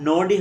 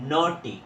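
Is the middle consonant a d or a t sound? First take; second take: d; t. First: The middle consonant is a d sound. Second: The middle consonant is a t sound. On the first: The speaker calls it wrong. "আসলে এটা কিন্তু নোডি হবে না" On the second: The speaker calls it right. "এটা হবে নোটি।"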